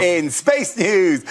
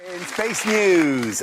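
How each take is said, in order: First: Slow, grand, stress on space; booming space-news headline; louder dramatic announcer. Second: Slow, grand news intro; slow, weighty space-news announcement; dramatic announcer. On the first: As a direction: lean hard on space like a big headline. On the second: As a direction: savour each word like a headline. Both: Acted. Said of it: "Oh, I love saying this".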